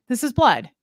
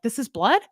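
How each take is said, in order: First: Flat certain statement, light Nicolas Cage; a hint of Nicolas Cage, stating "blood" firmly with a falling tune. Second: Puzzled rising question, light Nicolas Cage; a hint of Nicolas Cage, asking "blood?" on a rise. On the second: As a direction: ask it like a baffled Nicolas Cage. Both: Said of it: "I feel like Nicolas Cage".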